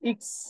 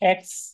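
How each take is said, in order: First: The letter name starts with an 'i' vowel. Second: The letter name starts with an 'e' vowel. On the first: This is how German speakers name the letter. The speaker calls it right. "সেটাকে তারা বলে ইক্স" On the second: This is the English way of naming the letter. The speaker calls it wrong. "আমরা ইংলিশে যে কি বলি, এক্স বলি না"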